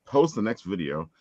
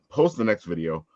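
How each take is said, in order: Both takes have the same delivery.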